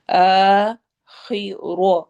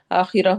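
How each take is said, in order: First: آخرہ drawn out slowly with a heavy ra; slow correct recitation. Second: آخرہ clipped short and hurried; rushed wrong reading. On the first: Teacher shows students the slow, correct آخرہ. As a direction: stretch it out properly. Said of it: "روا کو heavy کرنا ہے". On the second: Teacher mimics students rushing through آخرہ. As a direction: gabble it the way students rush. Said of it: "اس طرح کر کے ہم پڑھ دیتے ہیں". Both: Shown as a demonstration.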